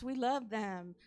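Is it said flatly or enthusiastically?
flatly. It is said flatly, without enthusiasm.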